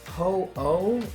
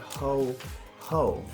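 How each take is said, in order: First: The second syllable starts with a vowel. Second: The second syllable starts with an h sound. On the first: The speaker calls it right. "it's ho oh" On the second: The speaker calls it wrong. "call it ho ho back in the day"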